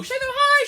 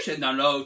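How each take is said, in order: First: High voice on high. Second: Low voice on low. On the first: Teacher shaking hands up high, voice rising high. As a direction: voice jumps up high on high. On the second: Teacher shaking hands down low, voice dropping. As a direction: voice drops low on low. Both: Shown as a demonstration.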